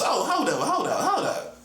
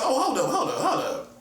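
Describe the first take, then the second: First: It is said with a West Coast accent. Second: It is said in the speaker's plain voice.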